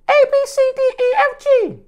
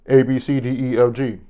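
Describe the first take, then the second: First: It is said in a high voice. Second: It is said in a low voice.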